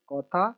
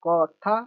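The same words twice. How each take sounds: First: Said in the usual way. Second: Each syllable set apart. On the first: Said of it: "इसको half करके फिर पढ़ेंगे". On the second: Shown as a demonstration. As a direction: sound it out piece by piece for a learner. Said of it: "divide कर देना है".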